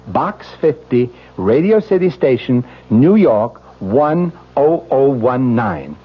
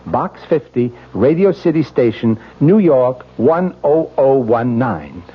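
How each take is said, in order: Both takes have the same delivery.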